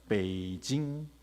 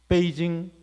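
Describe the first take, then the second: First: The word is said with Chinese tones. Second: The word is said with flat pitch. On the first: This is how Chinese speakers say it. "중국 사람들은 베이징이라고 불러요" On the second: This is how Koreans say it. "우리는 뭐라고 부릅니까? ... 성조가 없죠"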